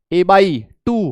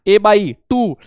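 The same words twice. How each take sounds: First: "a by टू" stretched out very slowly; slow drawn answer. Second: Said in the usual way. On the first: Shown as a demonstration. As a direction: drag the answer a by टू out slowly for the class. ("a by टू" बहुत धीरे खींचकर) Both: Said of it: "कितनी हो गई?".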